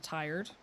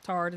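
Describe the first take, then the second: First: "tired" with full "tie-erd"; standard pronunciation. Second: "Tired" flattened to "tard"; local pronunciation. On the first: Comparing with her local version, standard "tired". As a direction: give "tired" its long i and r. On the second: Showing another accent example, flattened "tard". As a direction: say "Tired" as one syllable, "tard". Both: Shown as a demonstration. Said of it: "Tired instead of tired".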